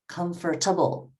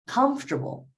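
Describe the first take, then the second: First: The stress falls in an awkward, unnatural place. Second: The stress falls in the natural place. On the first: The speaker calls it wrong. "number one sounded so bad" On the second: The speaker calls it right. "you're right. The stress is on comfortable"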